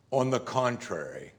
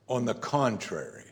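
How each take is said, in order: Both takes have the same delivery.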